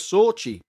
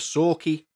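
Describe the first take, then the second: First: The consonant after 'Sor' is a 'ch' sound. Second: The consonant after 'Sor' is a 'k' sound. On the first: The speaker calls it wrong. "which is how I thought it was pronounced until I researched it" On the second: The speaker calls it right. "the events of the Sorky Poltergeist"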